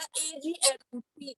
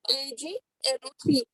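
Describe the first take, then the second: First: Said in the usual way. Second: हर अक्षर धीरे-धीरे और साफ़ बोलना; छात्रों के लिए धीरे से दोहराओ; धीरे दोहराना. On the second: Shown as a demonstration. (धीमे, साफ़ अक्षरों में दोहराना) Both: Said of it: "क्या लिया?".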